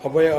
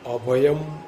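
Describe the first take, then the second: First: The word ends on a vowel without m. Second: The word ends with a closed-lip m sound. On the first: The speaker calls it wrong. "ઘણા લોકો ... ઝડપથી બોલવામાં ... અભય ... એવી રીતના થઈ જતું હોય છે" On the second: The speaker calls it right. "દરેક શબ્દની પાછળ હોઠ ભેગા થવા જોઈએ"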